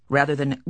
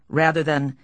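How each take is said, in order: Both takes have the same delivery.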